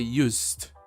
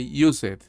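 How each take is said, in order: First: The word is said with one syllable. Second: The word is said with two syllables. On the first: The speaker calls it right. "You say" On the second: The speaker calls it wrong. "you don't say"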